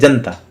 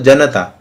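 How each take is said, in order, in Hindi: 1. तेज़ बोलने पर दो व्यंजनों के बीच का स्वर छूट जाता है। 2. सामान्य गति से बोलने पर बीच का स्वर पूरा बोला जाता है। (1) "द्रुत गति से बोला तो ये हो गया जनता" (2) "सामान्य गति से तो हम लोगों ने बोला तो जनता, अ का उच्चारण कर दिया"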